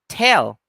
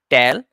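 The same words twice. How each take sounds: First: The first t has a puff of air. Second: The first t has no puff of air. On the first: The speaker calls it right. "the right pronunciation is with aspiration" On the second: The speaker calls it wrong. "Don't say tell"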